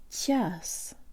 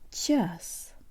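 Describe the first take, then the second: No difference in how they are said.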